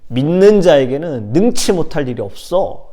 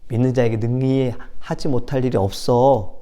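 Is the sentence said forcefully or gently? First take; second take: forcefully; gently. First: It is said in a strong, forceful way. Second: It is said in a soft, gentle way. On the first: The speaker calls it right. "아주 강하게 말씀하셨을 것 같아요" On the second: The speaker calls it wrong. "이게 아니라"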